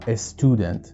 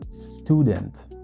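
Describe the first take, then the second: First: An extra 'e' vowel is added before the s. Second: The word starts directly with the s sound. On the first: The speaker calls it wrong. "میایم همیشه اس تلفظ میکنیم" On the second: The speaker calls it right. "باید اس اول س تلفظ بشه"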